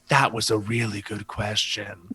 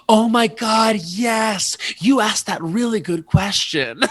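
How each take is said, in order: First: Low, slow, measured praise; low confiding verdict. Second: High, loud, drawn-out gushing; excited recognition. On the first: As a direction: say it slowly down in a low voice. Acts out friend's hushed verdict. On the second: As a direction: shout it in delighted recognition. Acts out friend's excited recognition. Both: Retold or imitated.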